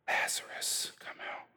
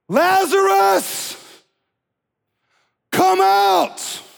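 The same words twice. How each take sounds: First: It is said quietly, without shouting. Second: It is shouted in a loud voice.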